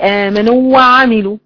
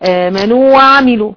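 The two takes are said the same way.

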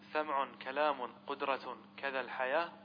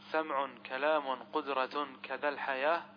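No difference in how they are said.

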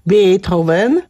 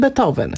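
First: It is pronounced the German way. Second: It is pronounced the Polish way. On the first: "Niemcy mówią na przykład" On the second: "a my mówimy"

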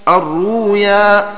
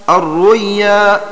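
The two takes are said the same way.

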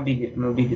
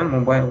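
First: The word ends in a 'bee-lee' sound. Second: The word ends in a 'bile' sound. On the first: "Мобили, ну если немецкий" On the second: "я по-английски"

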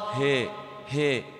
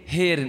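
First: The vowel is tilted slightly toward 'ee'. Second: The vowel is tilted strongly toward 'ee'. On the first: "الإمالة الصغرى" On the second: "الإمالة الكبرى"

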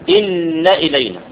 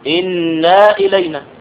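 First: The vowel after the n is kept short. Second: The vowel after the n is drawn out long. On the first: The speaker calls it right. "إنما الصواب إن إلينا" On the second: The speaker calls it wrong. "فالخطأ أن تقول إنا إلينا"

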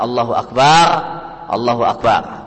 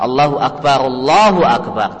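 First: The two phrases are split with a stop between. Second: The two phrases run together without a break. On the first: The speaker calls it wrong. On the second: The speaker calls it right.

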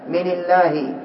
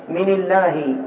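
No difference in how they are said.

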